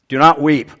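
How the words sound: It is said sternly and harshly.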